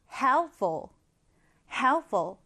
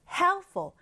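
First: HELP-ful, slow and clear; stress on the first syllable. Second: Helpful with HELP strong and -ful weak; HELP-ful, punched at the start; stress on the first syllable. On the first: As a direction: lean on help, drop the ending. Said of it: "앞에 강세를 강하게 두고 뒤엔 약하게". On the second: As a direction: hit help-, let -ful fall away. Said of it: "이럴 땐 강세를 다르게". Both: Shown as a demonstration.

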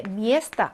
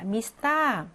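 First: "места" stressed on the first syllable, singular form. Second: "미스타" with the stress moved to the final syllable; stress on last syllable. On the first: Teacher gives the original singular noun, "места" stressed at the front. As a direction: hit the first vowel of "места". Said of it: "단수 명사인데". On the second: Teacher demonstrates the plural, "미스타" stressed at the back. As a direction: reduce the first vowel of "미스타", stress the end. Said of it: "강세가 뒤로 이동을 해서". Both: Shown as a demonstration.

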